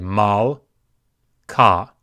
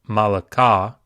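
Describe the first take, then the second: First: No vowel is sounded between L and K. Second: An extra vowel is sounded between L and K. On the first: The speaker calls it right. "we say mal, ka" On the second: The speaker calls it wrong. "we don't say malaka"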